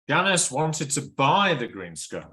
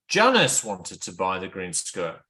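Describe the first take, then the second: First: The stress falls on the second word. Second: The stress falls on the first word. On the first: She truly desired it, not just looked at it. "she really wants" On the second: It was this person, not another one, who wanted it. "the stress on Janice"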